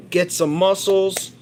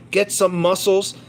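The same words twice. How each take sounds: The two takes are said the same way.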